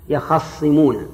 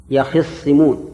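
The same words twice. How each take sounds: First: يخصمون with the خ said with a fatha, yakhassimūn; يخصمون said with an open a on the خ; fatha reading. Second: يخصمون slowly, with a kasra on the خ, yakhissimūn; kasra reading. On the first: Teacher reads out the first reading for the students, with an open a on the خ. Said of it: "بالفتح". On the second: Teacher slowly models the reading in the students' Quran copy, with an i on the خ. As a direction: draw out يخصمون with an i on the خ. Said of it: "والقراءة التي في المصحف". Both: Shown as a demonstration.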